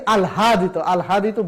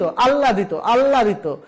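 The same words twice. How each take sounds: First: আহ্লাদিত as "al-hadito", audible h; spelling pronunciation. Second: আহ্লাদিত as "alladito", h silent; actual pronunciation. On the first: Teacher shows what we don't say, আহ্লাদিত as "al-hadito". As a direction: keep l and h separate in আহ্লাদিত. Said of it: "আহ্লাদিত বলি না". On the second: Teacher drills students on আহ্লাদিত as "alladito". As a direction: lengthen the l in আহ্লাদিত. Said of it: "আর আমরা উচ্চারণ". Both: Shown as a demonstration.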